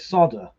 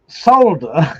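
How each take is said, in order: First: The L sound is left out. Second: The L sound is clearly pronounced. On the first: This is how American speakers say it. "They pronounce it without the L" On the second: This is how British speakers say it. "Solder is how we would say"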